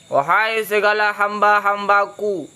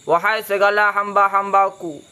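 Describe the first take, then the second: The two takes are said the same way.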